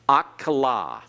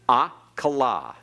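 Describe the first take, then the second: First: The word begins with an a vowel. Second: The word begins with an a vowel.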